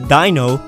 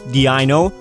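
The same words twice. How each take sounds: First: The name echoes German 'eins'. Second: The name does not echo German 'eins'. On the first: The speaker calls it right. "their pronunciation is actually ... mimicking eins" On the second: The speaker calls it wrong. "a common misconception that these Pokemon are pronounced"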